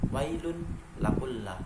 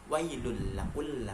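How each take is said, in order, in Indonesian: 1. Bunyi n jelas diucapkan sendiri. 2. Bunyi n menyatu dengan l setelahnya. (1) "Di situ pertama harus dibaca wailun lakullah" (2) "masuk tapi tanpa mendengung"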